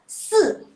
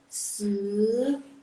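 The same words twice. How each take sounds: First: The pitch falls sharply from high to low. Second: The pitch rises from mid to high. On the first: "kalau nada keempat" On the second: "kalau dia nada kedua"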